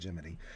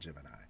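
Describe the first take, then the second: First: The word ends with an 'ee' sound. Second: The word ends with an 'eye' sound. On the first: This is how the people involved pronounced it. "but they say Jiminy" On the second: This is the speaker's own usual pronunciation. "I say Gemini because I am a Gemini"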